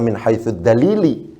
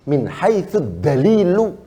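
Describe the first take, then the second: First: The final word ends with an i vowel. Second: The final word ends with a u vowel. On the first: The speaker calls it wrong. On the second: The speaker calls it right.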